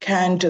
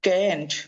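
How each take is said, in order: First: It is said in a British accent. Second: It is said in an American accent. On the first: "British ആക്സെന്റിൽ പറയുമ്പോൾ നമ്മൾ കാൻറ്റ് എന്ന് പറയും" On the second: "American ആക്സെന്റിൽ കാൻറ്റ് എന്നാണ് പറയുക"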